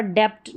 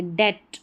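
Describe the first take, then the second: First: डेप्ट with b/p sound before t; wrong pronunciation. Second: डेट going straight to t; silent b. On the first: Teacher showing the error, extra stop in डेप्ट. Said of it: "डेप्ट नहीं पढ़ेंगे". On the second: Teacher giving correct form, डेट with silent b. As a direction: drop the b in डेट. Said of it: "बी नहीं पढ़ा जा रहा". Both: Shown as a demonstration.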